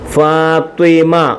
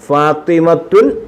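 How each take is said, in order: First: The name ends on an open 'a' vowel. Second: The name ends with an added '-tun' syllable. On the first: The speaker calls it right. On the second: The speaker calls it wrong.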